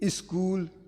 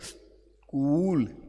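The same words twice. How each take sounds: First: An extra vowel is added before the initial s. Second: The word begins directly with the s sound. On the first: The speaker calls it wrong. "हम आधा सा जहां आता वहां ई लगा देते हैं" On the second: The speaker calls it right. "सा पहले बोलने फिर बोले"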